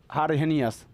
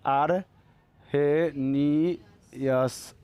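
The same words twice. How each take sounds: First: Said in the usual way. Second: Very slow, low, syllable by syllable; drawn-out syllables. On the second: Real, not acted. Teacher writing the name for the class, drawn-out syllables. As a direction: stretch each syllable as if writing it down.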